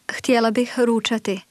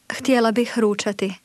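No difference in how they are said.

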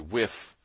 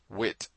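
First: The final TH is pronounced as an F. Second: The final TH is pronounced as a T. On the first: "often sounded out as F or T" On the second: "often sounded out as F or T"

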